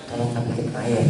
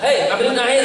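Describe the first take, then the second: First: Quiet, lower, gentle ask for water; soft polite request. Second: Higher, brusque hey; rough rude call. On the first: Host quietly asking his child for water, soft and polite. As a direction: murmur it kindly to your child. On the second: Host rudely ordering his child in front of guest, brusque. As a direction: bark it without manners. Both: Shown as a demonstration. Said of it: "Karena kalau ngomongnya".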